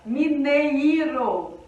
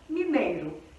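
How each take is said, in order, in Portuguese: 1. O E e o I são vogais separadas. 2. O I é fraco e desliza depois do E. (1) "Se o E e o I fossem fortes, fossem vogais" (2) "O I, ele perde o tom"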